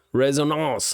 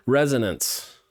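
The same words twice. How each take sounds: First: Resonance said the French way, rez-oh-NAHNS; French accent. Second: Said in the usual way. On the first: Pretend. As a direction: Resonance with a nasal French ending. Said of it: "I started using a French accent". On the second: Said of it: "now I'm messing it up every time".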